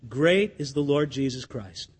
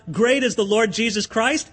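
First: Low, soft and earnest; preacher declaring his faith softly; sincere declaration. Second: Declared as a public cry; standing up to cry out his praise; mock crying out. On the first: Real, not acted. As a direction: say it quietly with conviction. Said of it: "But I'll say this". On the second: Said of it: "If I stand up and cry out".

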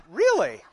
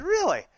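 First: High, louder hammed-up "Really?"; exaggerated surprise for the class; mock surprise. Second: High, loud mock-surprised "Really?"; mock surprise. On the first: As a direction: act stunned in jest. Retold reply to daughter. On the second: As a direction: play along with a big fake gasp of surprise. Playing along with daughter.

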